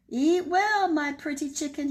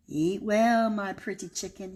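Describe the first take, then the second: First: Higher, louder wolf call; wolf crying out. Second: Lightly voiced wolf, coaxing; wolf calling sweetly. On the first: Acted. Wolf calling to the chicken over the cake, higher and louder. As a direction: call it out eagerly to the chicken's house. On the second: Wolf leaving pancakes on the porch, lightly coaxing. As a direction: coax the chicken, a hint of a wolf. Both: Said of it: "he cried".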